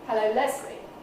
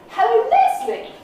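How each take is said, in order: First: The greeting is said at a mid pitch. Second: The greeting is said at a high pitch. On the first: "which is more mid" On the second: "which is really high"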